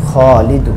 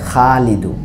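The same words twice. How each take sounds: First: খলিদু with a rounded, long "aw" in খ; correct heavy vowel. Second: খালিদু with an open, long "aa" in খা; wrong a-vowel pronunciation. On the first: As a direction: say খলিদু slowly, full-mouthed "khaw", not "khaa". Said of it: "আমরা বলি". (খলিদু-র খ ভারী, গোল অ-উচ্চারণে, আকার ছাড়া) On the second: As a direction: say খালিদু like Bengali aa-kar, a light open vowel. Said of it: "আকারের মতো যদি উচ্চারণ". (খালিদু-র খা আকারের মতো খোলা উচ্চারণে) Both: Shown as a demonstration.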